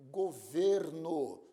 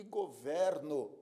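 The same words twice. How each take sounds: First: "governo" with a closed stressed e, as in "ê"; closed-vowel pronunciation. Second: "governo" with an open stressed e, as in "é"; open-vowel pronunciation. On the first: Teacher showing students the noun, closed-e "governo". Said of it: "pronúncia fechada". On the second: Teacher showing students the verb, open-e "governo". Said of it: "pronúncia aberta". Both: Shown as a demonstration.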